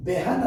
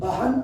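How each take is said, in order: First: బెహన్ with an e in the first syllable, said beh-han; బెహన్ with be, not ba, before the h; బెహన్ the way a teacher models it, e before h; correct pronunciation. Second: బహన్ with an open a, said ba-han; బహన్ with a plain a in the first syllable; బహన్ the common Telugu-speaker way, ba not be; wrong pronunciation. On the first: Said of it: "దీన్ని ఎలా పలకాలి అంటే". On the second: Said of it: "బహన్ అని మనం పలకవద్దు". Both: Shown as a demonstration.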